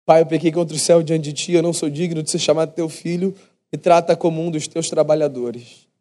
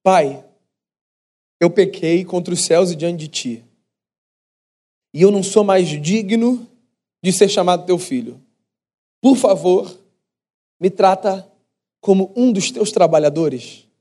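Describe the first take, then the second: First: Rehearsed apology. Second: Pleading son's speech. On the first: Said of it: "pensando em entonações". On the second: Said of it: "Esse foi o discurso que esse menino moço ensaiou". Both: Retold or imitated.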